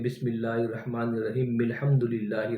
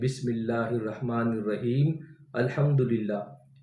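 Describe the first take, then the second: First: The final m links straight into the next phrase. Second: The two phrases are said separately, not linked. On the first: The speaker calls it right. "बिस्मिल्लाह शरीफ के मीम को अलहम्द शरीफ के लाम से मिलाकर" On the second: The speaker calls it wrong. "इस तरह नहीं पढ़ना"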